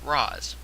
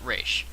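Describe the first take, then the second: First: The name is said as 'Roz'. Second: The name is said as 'Ra's'. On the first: "The Batman Begins film pronounces it Roz" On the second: "both Batman the Animated Series and Arkham City pronounces it Ra's"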